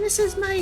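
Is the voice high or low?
high. The voice is pitched very high. "this is my high"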